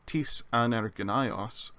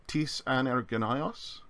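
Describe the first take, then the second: First: "tis anergynaios" said slowly as a statement with a falling end; unaccented "tis anergynaios" as a plain statement; statement, no accent. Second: "Tis anergynaios?" slow, stress on "Tis", rising like a question; accented "Tis anergynaios?" asking which man. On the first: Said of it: "if we say without the accent". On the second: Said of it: "But if we add the accent". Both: Shown as a demonstration.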